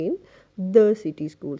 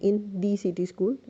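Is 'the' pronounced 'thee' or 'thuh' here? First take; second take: thuh; thee. First: 'The' is said with a short 'uh' vowel. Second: 'The' is said with a long 'ee' vowel. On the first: The speaker calls it right. "Consonant sound आ रहा है, तो आपको कहना चाहिए" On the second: The speaker calls it wrong. "It would be wrong"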